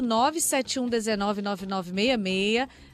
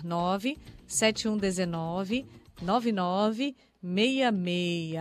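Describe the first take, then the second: First: The number is read at a quicker pace. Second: The number is read at a slower pace.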